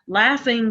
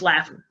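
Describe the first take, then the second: First: The ending is said with a full 'ing' sound. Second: The ending is said as 'in', g dropped.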